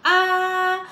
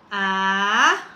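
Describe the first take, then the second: First: The pitch stays level through the syllable. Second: The pitch rises through the syllable.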